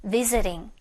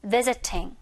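First: "visiting" with a flapped, r-like t; American "visiting"; American pronunciation. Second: "visiting" with a clearly released t; crisp British t in "visiting"; British pronunciation. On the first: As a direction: let the t of "visiting" soften, like "visiring". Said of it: "얼 발음으로 미국식에서는 발음이 돼요". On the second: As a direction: keep the t alive in "visiting". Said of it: "영국식에서는". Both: Shown as a demonstration.

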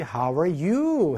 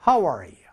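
First: "you" leaned on and drawn out; slow it down and stretch a strong "you"; stress on YOU. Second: Said in the usual way. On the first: Shown as a demonstration. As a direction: put the weight on the final "you". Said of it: "you를 이렇게 강하게 읽어주는". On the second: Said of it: "이렇게 얘기하는 경우가 많지".

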